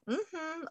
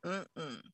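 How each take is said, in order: First: High "mm-hmm" of yes; a light, high hum of assent; gut yes hum. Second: Low quiet "mm-mm" of no; a low, dropped hum of refusal; gut no hum. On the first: Host voicing a sacral yes, high hum. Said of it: "It's just gonna be like". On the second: Host voicing a sacral no, low soft hum. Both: Retold or imitated.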